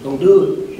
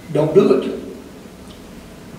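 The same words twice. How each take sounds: First: Said in the usual way. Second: Very slow hushed warning, almost without voice; whispered plea. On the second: Real, not acted. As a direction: breathe it to one listener, slowly.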